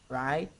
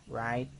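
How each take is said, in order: No difference in how they are said.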